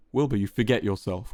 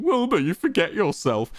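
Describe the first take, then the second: First: Spat out. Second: Higher mock of Quackity's line. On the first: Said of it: "Quackity spat". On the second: Wilbur mocking Quackity's intonation, higher sneering mimicry. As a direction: parrot his words back with scorn. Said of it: "mocking Quackity's intonation". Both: A narrator's reading.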